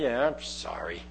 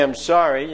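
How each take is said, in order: First: Much lower, much softer grudging yeah I'm sorry; grudging apology. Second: Said in the usual way. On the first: Shown as a demonstration. Preacher imitating kids who don't mean their sorry. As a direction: mutter it like a sulky kid forced to apologise. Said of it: "Kids do that all the time". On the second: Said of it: "Or you could say".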